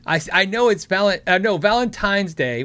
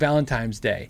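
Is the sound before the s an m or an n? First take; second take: n; m. First: The word is said with an n sound. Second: The word is said with an m sound. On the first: The speaker calls it right. "Valentine's Day with an N" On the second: The speaker calls it wrong. "when I say it, it always sounds like Valentine's Day"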